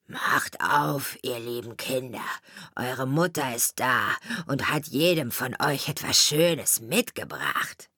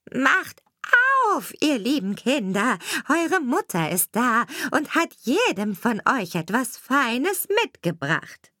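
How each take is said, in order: First: Low, rough wolf faking a mother. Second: Higher, sugary fake mother voice; wolf sweetens his tone to sound like mum; wolf's sweetened voice. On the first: Wolf at the door fakes the mother, rough and low. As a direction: growl it low, pretending to be kind. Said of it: "an der rauen Stimme". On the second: Wolf after eating chalk, faking a fine mother voice. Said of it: "machte damit seine Stimme fein". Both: A narrator's reading.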